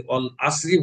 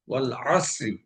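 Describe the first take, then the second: First: ওয়াল আসরি with a plain glottal start instead of ain; wrong ain as hamza. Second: ওয়াল আসরি with ain pressed from the throat; correct Arabic ain. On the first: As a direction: say ওয়াল আসরি with an alif sound, no throat squeeze. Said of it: "গলা চেপে আদায় না করে". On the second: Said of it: "আইন গলা চেপে আদায় করতে হবে". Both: Shown as a demonstration.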